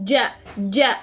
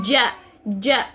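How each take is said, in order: Both takes have the same delivery.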